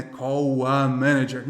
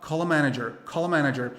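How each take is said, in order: First: Slow Brazilian "Call a", L turned into U; drawn-out Brazilian mispronunciation of "Call"; Brazilian-accented English. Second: "call a" joined as "calla"; linked American-style "call a manager"; correct linking. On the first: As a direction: say "Call a manager" unlinked, like a Brazilian learner, "cow... a". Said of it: "como muito brasileiro fala um U". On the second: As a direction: say "call a manager" in one flowing unit with a real L. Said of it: "Vai falar". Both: Shown as a demonstration.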